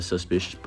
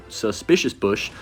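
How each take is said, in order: First: Said in the usual way. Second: Slow, careful suspicious bush. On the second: Shown as a demonstration. Retrying the tricky card name slowly for viewers. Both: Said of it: "that's a tongue twister for me".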